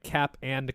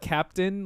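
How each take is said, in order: First: It is split into two words, cap and. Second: It is said as one word, captain. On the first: "my mom would pronounce it um like cap and crunch" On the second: "not captain"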